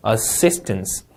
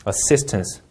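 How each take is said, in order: First: "assistance" with a sharp ss and falling ending; falling tune. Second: "assistance" again with a firm ss sound, falling; falling tune repeated. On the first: Teacher modelling assistance with a falling tune. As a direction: let "assistance" fall at the end. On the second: Teacher repeating the word with a falling ending. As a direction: repeat "assistance", dropping at the end. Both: Shown as a demonstration. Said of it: "내려읽으시면".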